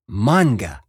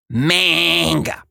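First: The first vowel is an open ah sound. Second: The first vowel is a flat eh sound. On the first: The speaker calls it right. "It's pronounced manga" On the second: The speaker calls it wrong. "not manga"

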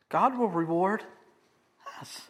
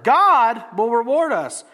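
First: The stress is on "us". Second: The stress is on "God".

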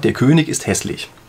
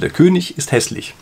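First: König ends with a hard k sound. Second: König ends with a soft ch sound. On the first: The speaker calls it wrong. "dass Sie König das Ende anders aussprechen als hässlich" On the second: The speaker calls it right. "genau das gleiche Ich am Ende wie bei hässlich"

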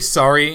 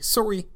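First: The word is said in a non-Canadian accent. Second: The word is said in a Canadian accent. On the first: "they don't say sorry in Canada" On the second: "They say sorry"

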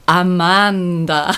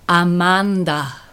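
First: It is said with a Spanish accent. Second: The same.

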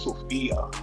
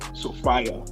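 First: The name is said the American way. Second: The name is said the Ghanaian way. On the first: "when you come to the state, London, you know, United States, Sophia" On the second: "in Ghana they'll say Sophia"

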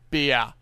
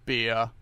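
First: The vowel glides, opening the mouth at the end. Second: The vowel stays steady without any jaw movement. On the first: "Western Australians tend to pronounce them more like fear, beer" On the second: "without any jaw movement"

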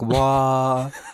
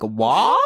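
First: It is said in a sad way. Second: It is said as a question.

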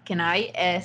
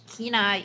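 First: The name is said with Spanish pronunciation. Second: The name is said with English pronunciation. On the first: "In Spanish, Kenai is actually pronounced Kenai" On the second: "Kenai is actually pronounced"

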